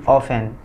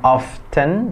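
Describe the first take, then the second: First: The T sound is silent. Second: The T sound is pronounced. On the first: The speaker calls it right. "tapi often" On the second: The speaker calls it wrong. "bukan often"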